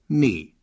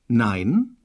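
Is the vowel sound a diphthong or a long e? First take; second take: long e; diphthong. First: The vowel is a long e sound. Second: The vowel is the diphthong ei.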